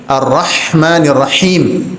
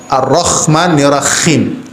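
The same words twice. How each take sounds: First: Ar-Rahmanir Rahim with a thin breathy h; correct light h. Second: Ar-Rahmanir Rahim with a rough kha for the h; wrong kha sound. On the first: Teacher shows students the correct thin h in Ar-Rahmanir Rahim. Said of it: "tipis atau pedas". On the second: Teacher shows students the wrong kha in Ar-Rahmanir Rahim. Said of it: "hati-hati untuk mengganti kha". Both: Shown as a demonstration.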